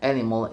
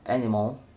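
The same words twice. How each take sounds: First: It is said with an extra vowel added. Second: It is said without an extra vowel. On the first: "The pronunciation animal instead of animal demonstrates epithesis" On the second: "instead of"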